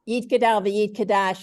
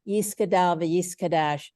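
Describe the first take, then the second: First: It is said in a Sephardic Hebrew accent. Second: It is said in an Ashkenazi Hebrew accent.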